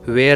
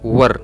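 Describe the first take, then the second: First: The word sounds like 'wair'. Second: The word sounds like 'wur'. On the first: The speaker calls it wrong. "इसे हम वेयर नहीं बोलेंगे" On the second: The speaker calls it right. "Correct pronunciation is वर"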